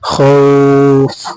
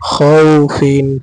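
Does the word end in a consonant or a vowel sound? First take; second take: consonant; vowel. First: The word ends abruptly on a consonant. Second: The word ends with its full vowel ending. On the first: The reading stops on this word. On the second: The reading continues without stopping here.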